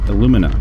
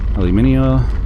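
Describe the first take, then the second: First: It ends plainly without the extra sound: alumin-a. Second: It ends with an extra 'ee' sound: alumin-ee-a. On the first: The speaker calls it right. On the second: The speaker calls it wrong.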